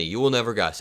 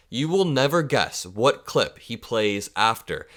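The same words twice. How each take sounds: First: Said in the usual way. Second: Drawn out, leaning on will; slow teasing emphasis. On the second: Shown as a demonstration. Host teasing viewers about the next clip, slow emphasis. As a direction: tease the reveal slowly, stressing "will". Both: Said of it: "Genuinely, you will never guess".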